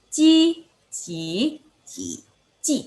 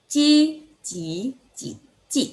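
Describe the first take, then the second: No difference in how they are said.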